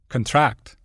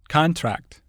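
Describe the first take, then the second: First: The stress is on the second syllable. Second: The stress is on the first syllable. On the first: It is used as a verb. "the corresponding verb is stressed on the stem" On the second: It is used as a noun. "Many nouns and adjectives are stressed on the prefix"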